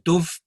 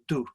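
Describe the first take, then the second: First: The word ends with a v sound. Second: The word ends on a vowel, without v. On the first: This is the older pronunciation, no longer used. "The Dove pronunciation has gone" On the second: This is how it is said in Scotland now. "so it's just do"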